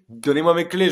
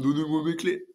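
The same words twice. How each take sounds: First: It is said in a plain, sober voice. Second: It is said in a slurred, drunken voice.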